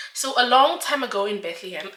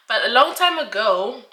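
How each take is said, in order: First: Laughing. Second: Said in the usual way. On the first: Real, not acted. Jokey storybook opening, laughing. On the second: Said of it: "sorry, don't come for me".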